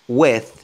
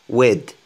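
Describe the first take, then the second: First: The word ends with a th sound. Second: The word ends with a d sound. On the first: "des anglophones qui prononcent with, with, avec th" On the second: "prononcez le T H D, comme un D"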